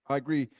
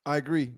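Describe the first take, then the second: No difference in how they are said.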